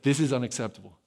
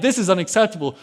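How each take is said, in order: First: Low, softer retold insistence; adamant. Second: Mildly indignant retold protest; offended. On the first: Teenage David stands his ground, quietly adamant. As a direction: insist firmly without raising the voice, lightly acted. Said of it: "he's adamant". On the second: David objects to insults against his God, offended. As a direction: voice David's offense, lightly acted. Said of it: "David is offended".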